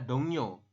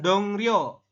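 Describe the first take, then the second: First: The second syllable starts with an n sound. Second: The second syllable starts with an r sound. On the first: The speaker calls it right. "Cuma dibacanya adalah dongnyo" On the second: The speaker calls it wrong. "membacanya bukan dongryo"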